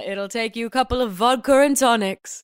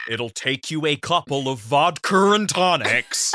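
First: Put-on British accent. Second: Put-on British accent done right. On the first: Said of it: "you hear his British accent in". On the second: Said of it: "he doesn't say it like that. He says".

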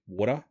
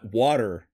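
First: "water" the Aussie way, no final R; everyday Aussie "water", R dropped; Australian pronunciation of water. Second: "water" with a pronounced final R; careful American-style "water", R sounded; Americanized pronunciation of water. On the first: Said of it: "what trips them up the most". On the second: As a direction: put on an American "water" to be understood. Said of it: "I have to say". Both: Shown as a demonstration.

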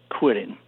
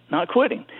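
First: Said in the usual way. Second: NOT QUITTING said again higher, rising on quitting; repeated with emphasis. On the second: Shown as a demonstration. Repeating his dad's lesson, higher and emphatic.

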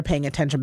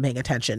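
First: Said in the usual way. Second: Hushed knowing repeat; knowing echo. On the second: Shown as a demonstration. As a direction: lower and softer repeat. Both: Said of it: "we can tell if they're paying attention".

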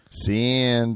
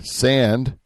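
First: Lightly voiced cartoon mouse; a hint of a lazy cartoon mouse; Slowpoke Rodriguez. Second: Said in the usual way. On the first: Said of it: "the impression like Slowpoke Rodriguez". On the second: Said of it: "I think it was like this".

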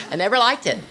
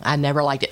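First: "never" punched, said higher; stress on never. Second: Said in the usual way. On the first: Shown as a demonstration. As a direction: hit "never" hard in "I never liked it".

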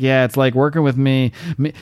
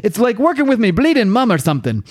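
First: Said in the usual way. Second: High-pitched, put-on character voice; acted exasperation. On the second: She grumbles about him going on about the force field, exasperated. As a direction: redo the quote in a higher mock-exasperated voice. Redoes Jenny's line in character.

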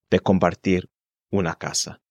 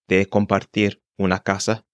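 No difference in how they are said.

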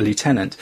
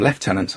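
First: "lieutenant" said loo-TEN-ant, North American way; American pronunciation. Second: "lieutenant" said lef-TEN-ant, British way; British pronunciation. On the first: Wondering how Canadians say "lieutenant", the loo-tenant way. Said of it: "I don't know how the Canadians pronounce that". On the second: Correcting to the British "lieutenant", said lef-tenant. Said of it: "We'd call it a lieutenant". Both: Shown as a demonstration.

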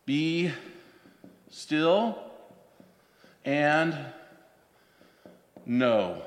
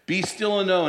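First: Be, still, and, know split with long pauses; word by word. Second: Said in the usual way. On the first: Shown as a demonstration. Preacher breaks the verse down for the congregation, word by word. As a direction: set each word apart, slowly. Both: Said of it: "break this down a little more".

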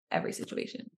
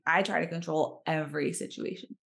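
First: Breathed repeat, much softer; every situation whispered, voiceless and soft; whispered aside. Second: Said in the usual way. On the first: Real, not acted. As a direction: drop it to a whisper under your breath. Repeats phrase under breath.

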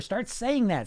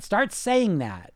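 First: Said in the usual way. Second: "Start saying that" repeated slowly, word by word; slow down and let "saying" land on the repeat. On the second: Shown as a demonstration.

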